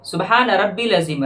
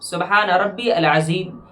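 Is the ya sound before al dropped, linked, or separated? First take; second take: dropped; separated. First: The ya sound is dropped before al. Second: Rabbi and al are said as separate parts. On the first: "जो कि गलत है" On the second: "ये भी गलत है"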